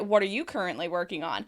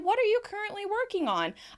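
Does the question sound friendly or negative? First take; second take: negative; friendly. First: The question sounds negative and suspicious. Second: The question sounds warm and inviting. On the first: The speaker doubts the other person's work. The speaker calls it wrong. "That kind of tone is a little bit negative" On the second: The speaker genuinely wants to hear about the work. The speaker calls it right. "if you're inviting the other person to share"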